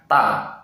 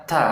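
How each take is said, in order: First: Slow ta with no air; wrong ta without breath. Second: Ta with a puff of air; correct ta with breath. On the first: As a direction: say ta dry, no puff. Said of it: "bukan ta". (ta yang salah tanpa angin) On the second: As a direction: let air out on ta. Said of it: "Yang benar". (ta yang benar dengan angin) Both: Shown as a demonstration.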